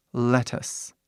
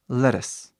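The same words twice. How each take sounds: First: Lettuce slowly with a crisp t; slow clear t. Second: Lettuce quickly with the t tapped like an r; fast flapped t. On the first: Teacher contrasting slow and fast lettuce, slow crisp t. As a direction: say lettuce slowly, t fully pronounced. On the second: Teacher contrasting slow and fast lettuce, fast tapped t. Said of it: "Ou, rápido". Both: Shown as a demonstration.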